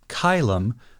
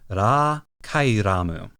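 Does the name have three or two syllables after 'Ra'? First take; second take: two; three. First: The name ends with two syllables, 'kai-lum'. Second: The name ends with three syllables, 'kai-ra-mu'. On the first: This is a compromise between the Japanese and Latin forms. "The way we're saying it, Kailum, feels kind of like a midpoint" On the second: This is the original Japanese form. "The Japanese is Ra Kairamu"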